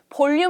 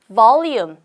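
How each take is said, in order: First: It begins with a b sound, Korean style. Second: It begins with a v sound, teeth on lip. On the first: The speaker calls it wrong. "볼륨 하지 마시고요" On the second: The speaker calls it right. "V 발음할 때는 윗니가 아랫입술에 살짝 얹혀져요"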